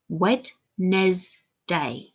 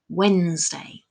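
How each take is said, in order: First: The word is broken into three separate chunks. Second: The word is said naturally as one unit.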